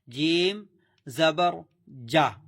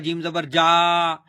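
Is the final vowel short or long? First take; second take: short; long. First: The final vowel is short, not stretched. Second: The final vowel is stretched out long. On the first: The speaker calls it right. "झटका भी नहीं देना, खींचना भी नहीं है।" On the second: The speaker calls it wrong. "यह गलत है।"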